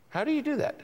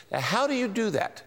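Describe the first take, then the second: First: Much higher, mock-bewildered asking; high-pitched, softer puzzled repeat; puzzled question. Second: Said in the usual way. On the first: Shown as a demonstration. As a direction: play the confused listener asking how.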